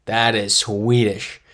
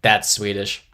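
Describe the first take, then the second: First: Slow, loud "That is Swedish", each word stretched; "That is Swedish" said slowly and firmly, uncontracted; emphatic repeat. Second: Said in the usual way. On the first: Real, not acted. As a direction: draw out "That is Swedish" with force. Emphatic repeat of the same verdict.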